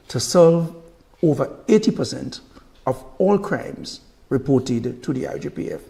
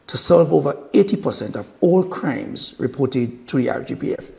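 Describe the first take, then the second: First: It is spoken at a slower, deliberate pace. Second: It is spoken at a normal, quicker pace.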